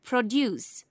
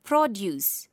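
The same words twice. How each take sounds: First: Pro-DUCE, weight on the last syllable; second-syllable stress. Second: PROD-uce, weight on the first syllable; first-syllable stress. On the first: Teacher showing verb stress to learners, second-syllable stress. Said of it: "stress is placed on the second". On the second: Teacher showing noun stress to learners, first-syllable stress. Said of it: "stress is placed on the first syllable". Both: Shown as a demonstration.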